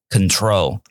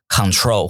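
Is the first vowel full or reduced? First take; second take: reduced; full. First: The first vowel is light and reduced. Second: The first vowel is a full, heavy sound. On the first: The speaker calls it right. "所以应该是control" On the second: The speaker calls it wrong. "你们可能都喜欢讲control"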